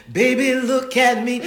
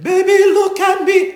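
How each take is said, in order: First: High, slow sung attempt. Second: Sung, very high, very loud operatic belt; teacher's operatic singing. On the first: Student attempting Fame for her voice teacher, singing. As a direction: sing it out, loud but held back. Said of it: "I was trying to sing Fame". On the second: Retold or imitated. Opera teacher showing her student the high note, sung full out. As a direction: sing it huge and soaring like an opera teacher. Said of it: "And she was like".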